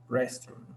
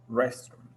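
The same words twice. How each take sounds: Both takes have the same delivery.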